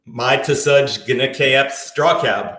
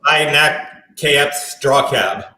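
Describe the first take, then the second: First: Slow reversed English; backwards speech. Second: English spoken in reverse; backwards speech. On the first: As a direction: recite it backwards, word by word. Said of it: "I'm just speaking backwards". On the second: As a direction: say the sentence backwards, slowly. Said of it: "I can speak backwards". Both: Shown as a demonstration.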